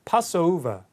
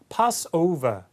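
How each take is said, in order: Both takes have the same delivery.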